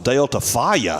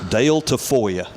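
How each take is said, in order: First: The middle syllable of the surname sounds like 'fa'. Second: The middle syllable of the surname sounds like 'fo'. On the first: The speaker calls it wrong. "At first, I looked at it and I thought it was" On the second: The speaker calls it right. "did I spell this right?"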